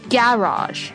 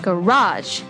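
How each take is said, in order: First: The stress is on the first syllable. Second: The stress is on the last syllable.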